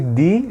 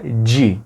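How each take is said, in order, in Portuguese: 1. O d é simples, sem chiado na soltura. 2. O d é palatalizado, soando parecido com o j. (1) "um som de Di" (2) "vira Di"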